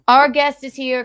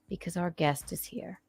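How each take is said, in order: First: Excited announcement. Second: Said in the usual way. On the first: Acted. Repeat, announced louder.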